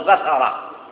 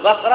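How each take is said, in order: First: The middle consonant is followed by an a vowel. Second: The middle consonant has no vowel after it. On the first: "وبفتحها" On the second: "بتسكين الثاء"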